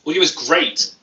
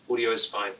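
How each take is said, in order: First: Louder, pleased read. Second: Said in the usual way. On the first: Real, not acted. Vlogger happily reads a viewer saying audio is great. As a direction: cheer the comment a bit louder. Cheering a chat comment.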